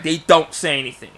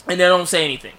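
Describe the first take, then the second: First: "don't" punched loud; stress on DON'T. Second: Said in the usual way. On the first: Real, not acted. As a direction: lean hard on "don't" to insist. Repeats it, stressing the negation.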